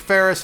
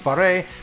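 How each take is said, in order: First: The name ends with a hissing s sound. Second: The name ends in a vowel with no s. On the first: The speaker calls it wrong. "People call me Ferris" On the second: The speaker calls it right. "It's pronounced Faré"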